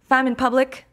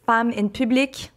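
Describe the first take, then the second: First: Quebec French accent on Femme in Public, higher and brighter; French Canadian accent. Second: Said in the usual way. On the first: Shown as a demonstration. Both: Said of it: "which I'm saying with my French Canadian accent".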